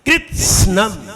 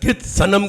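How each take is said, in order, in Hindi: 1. s सीधे बिना स्वर के n में जुड़ जाता है। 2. s और n के बीच एक पूरा स्वर सुनाई देता है। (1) "जीभ चिपक गई दांत से, अब हल्की से अंदर से हवा देनी है" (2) "सा कहा तो पूरा हो जाएगा"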